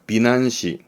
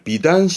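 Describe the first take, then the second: First: The middle syllable starts with an n sound. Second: The middle syllable starts with a d sound. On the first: This is an occasional reading. "간혹은 비난시, 음으로는 난 가기도 합니다" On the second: This is the usual reading. "비단시 하기도 합니다만"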